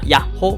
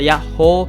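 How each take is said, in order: First: The word is said short and quick. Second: The word is drawn out long. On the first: The speaker calls it wrong. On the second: The speaker calls it right.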